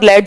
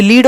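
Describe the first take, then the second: First: लेड with an e vowel, not ee; e-vowel pronunciation. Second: लीड with a long ee vowel; long ee pronunciation. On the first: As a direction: say लेड to rhyme with bed. (लेड में ए की ध्वनि) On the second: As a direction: say लीड to rhyme with need. (लीड में लंबी ई की ध्वनि) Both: Shown as a demonstration. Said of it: "ये बोले अलग जाते हैं".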